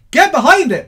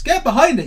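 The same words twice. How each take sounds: First: Loud, high rallying call; rally the viewers. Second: Said in the usual way. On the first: Real, not acted.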